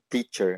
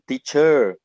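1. A tônica está na primeira sílaba. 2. A tônica está na última sílaba. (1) "eles não falam teacher" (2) "eles falam teacher"

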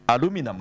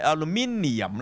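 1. 发音时结尾是较短的 -num。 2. 发音时结尾是完整的 -nium。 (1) "美國人咧，佢唔理你有I 冇I，佢都照發音咧" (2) "你嘅英國咧，好明顯係有個NIUM 做尾嘅"

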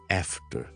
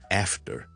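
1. 这是美式英语口音。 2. 这是美式英语口音。

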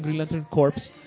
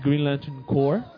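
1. Corps se dice como corpse, con los sonidos finales. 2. Corps se dice como core, sin los sonidos finales. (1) "no digan Green Lantern Corps porque van a sonar... A cadáver" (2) "si lo quieren decir en inglés es the Green Lantern Corps"

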